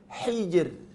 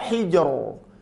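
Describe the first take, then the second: First: The final r is pronounced thin and light. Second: The final r is pronounced thick and heavy. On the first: The speaker calls it right. "Ra dibaca tipis" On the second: The speaker calls it wrong. "Jangan dibaca hijr"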